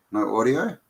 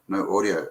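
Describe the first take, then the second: First: Rising, incredulous no audio; checking in disbelief; no audio asked with a rise; surprised question. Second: Said in the usual way. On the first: Real, not acted. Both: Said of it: "Oh, really?".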